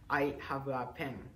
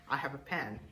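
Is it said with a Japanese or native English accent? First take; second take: Japanese; native English. First: It is said with a Japanese accent. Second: It is said with a native English accent.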